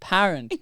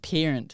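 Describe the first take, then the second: First: The first syllable has an open 'pa' vowel. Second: The first syllable sounds like the word 'pear'. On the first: The speaker calls it right. "Australian. We say parent. P A A A A A" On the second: The speaker calls it wrong. "It's not pear. It's not parent"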